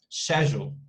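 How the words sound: The word is said in a British accent. "But the British pronunciation is super different"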